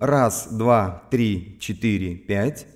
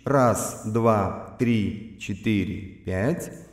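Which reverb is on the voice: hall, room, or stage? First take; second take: room; stage. First: The voice has a small room reverb. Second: The voice has a medium stage reverb. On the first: "Теперь Reverb. Слушаем Room" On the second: "Теперь услышим, что такое Stage"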